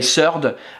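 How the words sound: It begins with an s sound. "the French would say surde"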